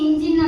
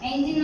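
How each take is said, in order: First: The first vowel sounds like 'ih'. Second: The first vowel sounds like 'eh'. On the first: "ಇಂಜಿನ್ ಅಂತಾನು ಕೂಡ ಕರಿತೀವಿ" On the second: "ಎಂಜಿನ್ ಅಂತಾನು ಕರಿತೀವಿ"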